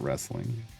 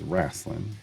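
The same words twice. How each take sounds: First: It is pronounced as standard 'wrestling'. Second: It is pronounced like 'rasslin'. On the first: This is how people in the Midwest did not say it. "not wrestling" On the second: This is how people in the Midwest said it. "Everybody referred to it as wrestling"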